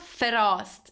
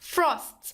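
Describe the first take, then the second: First: A short vowel separates the f and r. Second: The f and r sounds are joined directly. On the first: The speaker calls it wrong. "It is not frost" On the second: The speaker calls it right. "it's frost"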